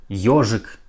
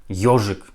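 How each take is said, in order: The two takes are said the same way.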